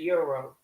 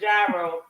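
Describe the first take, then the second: First: The word begins with a 'y' sound. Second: The word begins with a 'j' sound. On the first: The speaker calls it right. "But it's a euro" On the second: The speaker calls it wrong. "They ain't correct me now one damn day"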